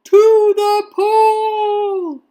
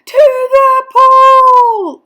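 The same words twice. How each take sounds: First: High, loud, long-drawn rallying cry; yell. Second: Very high, very loud drawn-out shout; boy's yell. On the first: Firemen announcing where to go, long loud yell. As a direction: stretch each word in a big shout. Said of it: "yelled the firemen". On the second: Boy echoing the firemen, higher full-voiced yell. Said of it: "I yelled". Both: A narrator's reading.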